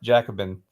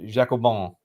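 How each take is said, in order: First: It is said with an English pronunciation. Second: It is said with a French pronunciation. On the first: "Wikipedia says it's pronounced Jacobin" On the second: "the French pronunciation is Jacobin"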